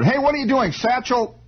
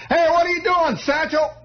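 First: High mock holler out a window. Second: Hollering. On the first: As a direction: call down from upstairs, stretching it high. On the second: Retold or imitated. Cousin Buddy calling down from the window, very high. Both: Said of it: "he hollers out of the window".

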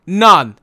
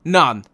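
First: None, hammered much louder; emphatic repeat. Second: Said in the usual way. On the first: Real, not acted. Fan repeats that Kane scored None, loud and emphatic. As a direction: slam the word None down.

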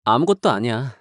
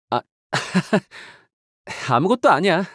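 First: Hide the hurt under a small denial; subdued denial. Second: A quick laugh, then 아무것도 아니야 tossed off lightly with a rise. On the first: After a long pause, subdued denial. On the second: To a companion, covering a slip with a light laughing brush-off. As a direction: laugh and wave the moment away. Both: Acted.

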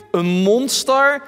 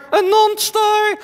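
First: Said in the usual way. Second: High, slow puppet voice; frightened doll asking; talking doll. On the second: Acted. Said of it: "Henk is mijn pratende pop".

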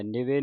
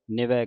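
First: ਨਿਵੇ ending in a close e; ਨਿਵੇ with a narrow final vowel; mistaken final e. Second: ਨਿਵੈ ending in an open ai; ਨਿਵੈ with a wide final vowel; correct final ai. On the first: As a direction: say ਨਿਵੇ as ni-vay. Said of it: "ਨਿਵੇ ਨਹੀਂ ਪੜ੍ਹ ਦੇਣਾ". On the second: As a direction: say ਨਿਵੈ as ni-vai, like eh. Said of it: "ਨਿਵੈ ਕਹਿਣਾ". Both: Shown as a demonstration.

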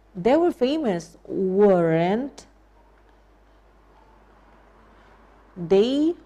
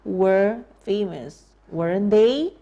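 First: They were famous stressed, rising tag on weren't they; demo question tag. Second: Were famous said slowly with stress on were, weren't they rising; slow it right down, leaning on were; slow drill. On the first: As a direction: teach it with weren't they lifting at the end. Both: Shown as a demonstration. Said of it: "Ya, bukankah begitu?".

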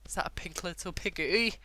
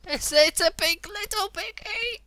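First: Higher, rising question; delighted surprise. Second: Very high, loud, drawn-out squeal; excited squeal. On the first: Gamer spotting a pink piggy, delighted surprise. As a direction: ask it in rising disbelief. First spots a cute pig. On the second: Gamer confirming it's a piggy, ecstatic squeal. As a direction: squeal it slowly with delight. Squeals over a cute pig. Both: Real, not acted.

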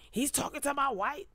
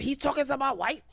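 First: Higher, softer whine on my wife; mock wounded husband; whiny jealous JoJo. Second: High, fast indignant repeat; hammed-up jealous husband; jealous mock JoJo. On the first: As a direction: whimper it like a sulking husband. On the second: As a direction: protest higher and quicker like a jealous husband.

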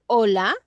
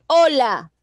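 First: HOLA fuerte, subiendo al final; pregunta. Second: HOLA fuerte y agudo, cayendo; exclamación. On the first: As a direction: di «hola» como pregunta, levantando la última sílaba. (pregunta con final ascendente) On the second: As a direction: saludo exclamado, «hola» alto que baja de golpe. (exclamación fuerte con final descendente) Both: Shown as a demonstration. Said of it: "Exclamación también".

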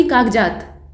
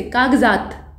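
First: कागजात slowly with a hard j, kaagjaat; कागजात slowed, plain j instead of z; wrong j sound. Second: कागजात with the dotted z sound; correct nukta z. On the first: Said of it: "न कि कागजात". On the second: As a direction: say कागजात as kaagzaat. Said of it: "अब इसको पढ़ेंगे कैसे?". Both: Shown as a demonstration.

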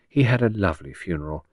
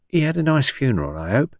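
First: Even, understated reassurance in a refined voice; obliging. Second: High-starting, inquisitive Cockney woman; old Cockney patient. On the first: A narrator's reading. Visitor humours patient about funeral, mildly obliging. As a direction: answer obligingly, without Cockney. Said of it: "said Henrietta obligingly". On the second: Acted. Patient asks visitor about funeral, inquisitive Cockney. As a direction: ask hopefully in a Cockney old-lady voice.

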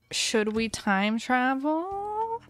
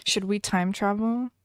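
First: Slow, drawn-out repeat of the question. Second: Said in the usual way. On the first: Shown as a demonstration. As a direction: stretch every word of "Should we time travel?" out lazily.

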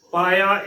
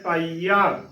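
First: ਪਾਇਆ said paa-ya; short glide in ਪਾਇਆ, no ee; wrong pronunciation. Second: ਪਾਈਆ said paa-ee-aa; long, separate ee in ਪਾਈਆ; correct pronunciation. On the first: Teacher showing the mistake, ਪਾਇਆ as paa-ya. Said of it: "ਇਸ ਦਾ ਗਲਤ ਉਚਾਰਨ ਹੋਏਗਾ". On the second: Teacher showing the right reading, ਪਾਈਆ as paa-ee-aa. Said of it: "ਇਸ ਦਾ ਸਹੀ ਉਚਾਰਨ ਹੈ". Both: Shown as a demonstration.

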